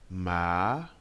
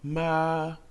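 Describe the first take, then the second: First: The pitch climbs from low to high. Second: The pitch stays flat and high. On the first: "Le deuxième ton part d'une voix grave pour aller dans les aigus" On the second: "Le premier ton se prononce plat et aigu"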